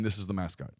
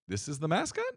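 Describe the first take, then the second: First: It sounds firm and commanding, like a final order. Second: It sounds unsure and tentative, like asking for approval. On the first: The decision is final and not open for discussion. The speaker calls it right. "I'm a dictator. I'm walking in going" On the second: The decision is being offered up for approval. The speaker calls it wrong.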